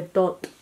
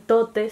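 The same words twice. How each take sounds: First: Tot with the final E dropped; dialect tot. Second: Said in the usual way. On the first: Shown as a demonstration. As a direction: clip tot to one syllable ending on T. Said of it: "se dice tot". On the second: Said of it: "en vez de decir tote".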